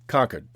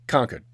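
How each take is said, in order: First: The R sounds in the word are dropped. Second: The same.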